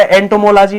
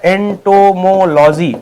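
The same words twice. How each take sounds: First: Said in the usual way. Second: "entomology" broken into long syllables; slow dictation. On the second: Shown as a demonstration. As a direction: spell out "entomology" by sound, slowly. Teacher repeats term for learners.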